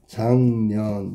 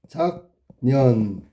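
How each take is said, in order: First: The first syllable ends in an ng sound. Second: The first syllable ends in a k sound.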